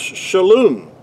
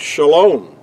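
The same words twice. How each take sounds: First: The second vowel is a U sound. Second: The second vowel is an O sound. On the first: This is the ancient Hebrew form. "But in ancient Hebrew, that word was pronounced shalom" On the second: This is the modern Hebrew form. "in modern Hebrew, the word shalom"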